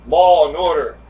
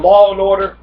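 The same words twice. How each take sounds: First: Said in the usual way. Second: Law and Order called out loud and high; louder, higher Law and Order, stress on Law; slogan. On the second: Shown as a demonstration.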